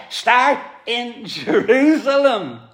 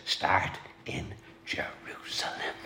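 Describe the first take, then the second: First: Slow, high preaching stress on "start in Jerusalem"; raised, slowed "start in Jerusalem" with a falling close; emphatic. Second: Hushed whisper on "Start in Jerusalem"; soft whispered "Start in Jerusalem", no voice. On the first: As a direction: drag it out, lean hard on "Jerusalem". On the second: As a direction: breathe it out as a whisper, "Start" lifted. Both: Retold or imitated. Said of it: "he emphasized this".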